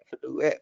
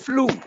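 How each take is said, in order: First: The word ends with an extra vowel sound. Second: The word ends cleanly on the vowel. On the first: The speaker calls it wrong. "Yang awak sebut fly eh ke, ... flu eh" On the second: The speaker calls it right. "Dia sebut flu"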